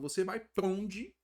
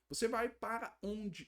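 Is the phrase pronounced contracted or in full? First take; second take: contracted; full. First: The words are shortened and run together. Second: Every word is pronounced fully and separately. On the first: This is the informal everyday way of speaking. The speaker calls it right. "a gente fez tipo uma contração aqui" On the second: This is not how people normally talk. The speaker calls it wrong. "não falo para você assim"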